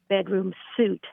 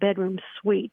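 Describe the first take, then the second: First: The last word sounds like the clothing word suit. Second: The last word sounds like the word sweet. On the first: The speaker calls it wrong. "I've also heard the word bedroom suit" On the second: The speaker calls it right. "a suite is a bedroom suite"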